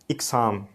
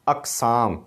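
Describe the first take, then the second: First: The first vowel is an 'i' sound. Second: The first vowel is an 'a' sound. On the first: The speaker calls it wrong. "इक़साम नहीं है, अलिफ के नीचे ज़ेर नहीं है" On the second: The speaker calls it right. "बल्कि ज़बर है"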